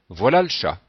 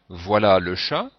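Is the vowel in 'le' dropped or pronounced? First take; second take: dropped; pronounced. First: The vowel in 'le' is dropped, said faster. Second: The vowel in 'le' is pronounced, said slowly. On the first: "si on veut parler à un rythme un peu plus rapide" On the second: "soit en prononçant le E, ... ça veut dire qu'on parle plutôt lentement"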